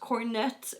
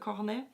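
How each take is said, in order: First: The word is said with an English pronunciation. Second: The word is said with a French pronunciation. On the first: The speaker calls it wrong. "not cornet" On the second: The speaker calls it right. "speaking in French like a cornet"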